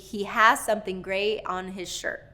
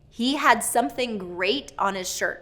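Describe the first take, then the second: First: The final D and T sounds are dropped. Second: The final D and T sounds are pronounced. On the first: The speaker calls it wrong. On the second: The speaker calls it right.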